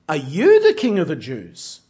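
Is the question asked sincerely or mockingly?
mockingly. It is asked with mocking disbelief.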